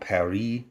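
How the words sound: Paris is said with a French accent. The speaker calls it right. "You're supposed to pronounce it with a French accent"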